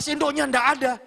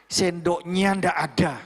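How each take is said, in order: First: High-pitched, scolding complaint; imitated angry rant. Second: Slow, measured firm reminder. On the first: Young boss finding no spoon on the table, mock angry rant. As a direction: fume over the missing spoon. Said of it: "dia marah-marah, ngamuk-ngamuk". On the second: Shown as a demonstration. Mentor modelling how to tell staff a spoon is missing, firm. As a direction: state it deliberately, without ranting. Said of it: "Bahasamu tegas".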